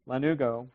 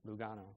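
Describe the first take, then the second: First: The word is said as 'la-NOO-go'. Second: The word is said as 'lu-GAH-no'. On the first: The speaker calls it right. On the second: The speaker calls it wrong.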